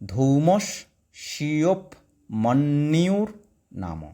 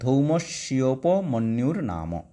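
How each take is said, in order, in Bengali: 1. এটি আলাদা আলাদা অংশে, মাঝে বিরতি দিয়ে উচ্চারণ করা হয়। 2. এটি বিরতি ছাড়া মসৃণভাবে জুড়ে উচ্চারণ করা হয়। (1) "ভেঙে দিয়েছি" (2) "একসঙ্গে পড়লে"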